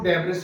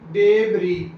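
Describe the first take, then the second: First: The word ends with an audible s sound. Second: The word ends in an ee sound, no s. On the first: The speaker calls it wrong. "Student उनको follow करेंगे, वो डेब्रस ही पढ़ेंगे इसे" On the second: The speaker calls it right. "Correct pronunciation है डेबरी। एस तो totally silent है"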